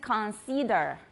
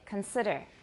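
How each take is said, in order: First: The first syllable has a full vowel, not schwa. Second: The first syllable has a reduced schwa vowel. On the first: The speaker calls it wrong. "a lot of people in Taiwan say consider" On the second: The speaker calls it right. "it's kun, it's a schwa ... the I is a short I"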